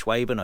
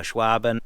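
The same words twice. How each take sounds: First: "Schwaben" said as SHWAY-ben; long AY vowel in "Schwaben"; alternative pronunciation. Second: "Schwaben" said as SHWAH-ben; alternative pronunciation. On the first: Car vlogger unsure of a brand name, trying "Schwaben" as SHWAY-ben. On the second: Car vlogger unsure of a brand name, trying "Schwaben" as SHWAH-ben. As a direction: open AH vowel in "Schwaben". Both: Shown as a demonstration. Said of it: "I don't know how to pronounce".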